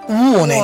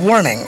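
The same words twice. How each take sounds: First: It is said with a British accent. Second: It is said with an American accent.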